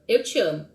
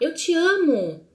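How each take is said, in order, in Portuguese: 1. É dito com calma, terminando como uma afirmação simples. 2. É dito com empolgação, terminando como uma exclamação. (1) "eu te amo, ponto" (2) "com ponto de, de exclamação"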